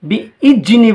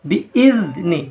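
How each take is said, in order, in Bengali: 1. মাঝের ব্যঞ্জনটি একটি গুঞ্জনধর্মী z ধ্বনি। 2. মাঝের ব্যঞ্জনটি একটি নরম th ধ্বনি। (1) "বিইজনি বলবেন না" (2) "জিভের ডগ সামনের ওপরের দাঁতের ডগায় লাগিয়ে উচ্চারিত হয়"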